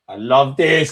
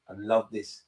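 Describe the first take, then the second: First: I love this, louder and punched out; louder gloat. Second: Said in the usual way. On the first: Real, not acted. Vlogger celebrating Liverpool's loss, louder gleeful gloat. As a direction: let the gloat burst out louder.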